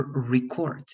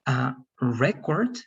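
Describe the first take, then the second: First: ReCORD, stress on the last syllable of "record"; stress on second syllable. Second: RECord, stress on the first syllable of "record". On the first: Teacher contrasting two words for class, "record" stressed on CORD. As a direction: verb "record" with a strong CORD, said slowly. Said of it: "If it's in the second part". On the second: Teacher contrasting two words for class, "record" stressed on REC. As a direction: noun "record" with a strong REC, said slowly. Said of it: "if it's in the first part". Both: Shown as a demonstration.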